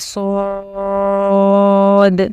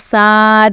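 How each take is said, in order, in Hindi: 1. अक्षर का नाम मोटा बोला जाता है, भारी स्वर के साथ। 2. अक्षर का नाम पतला बोला जाता है, हल्की स्वर के साथ। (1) "तो इसको मोटा पढ़ना है" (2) "इसको साद नहीं पढ़ना है"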